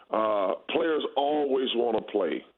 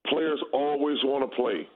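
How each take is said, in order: First: Slower, punching "players" at the start; slow emphatic repeat. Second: Said in the usual way. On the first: Shown as a demonstration. Former player hammering the point home to host, slow emphasis. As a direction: lean hard on "players" and let it sink in.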